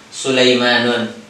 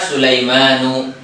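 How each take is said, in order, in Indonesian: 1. Kata ini diakhiri u lalu n. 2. Kata ini diakhiri vokal u biasa. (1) "tidak dengan Sulaimanun" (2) "dia dibaca Sulaimanu"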